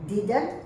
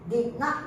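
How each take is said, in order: First: The words are joined into one contracted word. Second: Two separate words are said in full.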